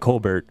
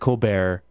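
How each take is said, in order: First: The name is pronounced the plain English way. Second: The name is pronounced the French way. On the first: It is the original, unpretentious version of the name. "he's actually an Irish dude" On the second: It is a put-on, fancy version of the name. "it sounds fancier and French"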